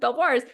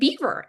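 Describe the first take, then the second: First: It is said like French 'bel-vwar'. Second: It is said like the word 'beaver'. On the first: This is how the writer imagined it. "in my mind was pronounced Belvoirs" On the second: This is how British people say it. "they pronounce it beaver"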